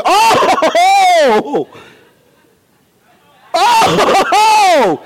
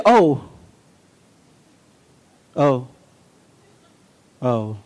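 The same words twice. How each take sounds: First: OH high, long and full-voiced; emphatic oh. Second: Said in the usual way. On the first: Shown as a demonstration. Preacher showing it depends how you say it, emphatic high OH. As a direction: belt each OH out, stretched with fervor. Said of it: "and how you say it". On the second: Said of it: "I can say".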